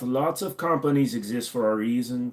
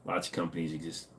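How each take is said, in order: First: Put-on German accent, crisp consonants. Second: Said in the usual way. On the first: Shown as a demonstration. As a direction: read it like a German speaking English. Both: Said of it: "since he said the German".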